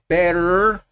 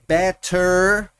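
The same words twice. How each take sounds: First: The T is said the North American way. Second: The T is clearly pronounced. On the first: "más norteamericano" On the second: "como sonando la T"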